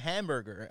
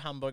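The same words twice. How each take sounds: First: It is said with an American pronunciation. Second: It is said with a Norwegian pronunciation.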